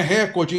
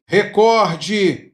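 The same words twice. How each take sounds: First: "recorde" as RÉ-cor-de; mispronounced "recorde", front-stressed; wrong first-syllable stress. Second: "recorde" drawn out as re-COR-de; careful "recorde", middle syllable stressed; stress on second syllable. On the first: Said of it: "então não é proparoxítona". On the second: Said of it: "paroxítona". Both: Shown as a demonstration.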